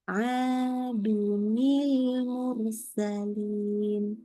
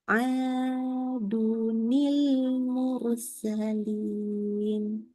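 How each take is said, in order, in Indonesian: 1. Bunyi sambung ni menghubungkan kedua kata. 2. Bunyi sambung ni menghubungkan kedua kata.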